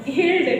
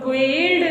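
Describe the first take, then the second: First: गिल्ड with G straight into the short vowel; silent U. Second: गिल्ड misread with a "gwe" glide after G; wrongly sounded U. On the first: Teacher gives pupils the answer, गिल्ड with silent U. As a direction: say गिल्ड with no W glide after G. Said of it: "क्या पढ़ना है?". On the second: Teacher warns pupils off it, गिल्ड with U sounded. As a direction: put a W sound into गिल्ड, like gweld. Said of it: "गिल्ड नहीं पढ़ना है". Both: Shown as a demonstration.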